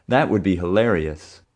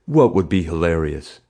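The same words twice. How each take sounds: First: Said in the usual way. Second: Mild bully's demand. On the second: A narrator's reading. Bully confronting the boy over a suspected prank, demanding. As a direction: challenge with weight on the first word. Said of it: "he demanded".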